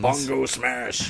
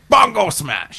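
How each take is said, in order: First: Slow dumb brute growl; Hulk smash voice. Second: High, loud brute roar; Hulk smash shout. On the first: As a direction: say it like a lumbering Hulk. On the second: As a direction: bellow it like an angry Hulk. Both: Pretend. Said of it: "I just wanna hear bon".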